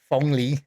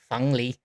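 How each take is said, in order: First: It is said with a Taiwanese o sound. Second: It is said with a mainland Beijing e sound.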